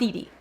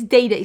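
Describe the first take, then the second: First: Each syllable has the vowel of 'dee'. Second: Each syllable has the vowel of 'day'. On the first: The speaker calls it wrong. "not Dee Dee" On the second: The speaker calls it right. "It's Day Day Signature"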